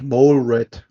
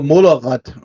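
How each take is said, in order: First: Mole is said as one separate syllable. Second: Mole is said as two syllables, blended in. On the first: The speaker calls it right. "das eigentliche Wortlaut ist ja eigentlich Mole Rat" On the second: The speaker calls it wrong. "das hat man auch Molerratte gesagt"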